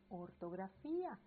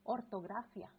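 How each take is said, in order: First: The stress falls on the 'fí' syllable. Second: The stress is not on the 'fí' syllable. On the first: The speaker calls it right. "se dice ortografía" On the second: The speaker calls it wrong. "si yo no respeto el acento en la última I, en la última sílaba, entonces yo podría cambiarlo"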